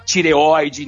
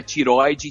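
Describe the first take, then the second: First: "tireoide" with the e sounded before open oi; correct pronunciation. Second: "tiroide" with the e dropped after the r; wrong pronunciation. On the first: Teacher showing "tireoide" with its e kept. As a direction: say every vowel in "tireoide", ti-re-oi-de. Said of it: "né, que não é tiroide". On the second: Teacher showing the mistaken "tiroide" without its e. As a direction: shorten it to "tiroide", ti-roi-de. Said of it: "que não é tiroide". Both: Shown as a demonstration.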